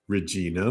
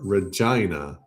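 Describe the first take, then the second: First: It is pronounced as the character is named on film. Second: It is pronounced like the Canadian city's name. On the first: "Betty Davis pronounces it Regina" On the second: "I called her Regina because I'm from Canada"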